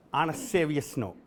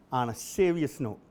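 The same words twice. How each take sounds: The two takes are said the same way.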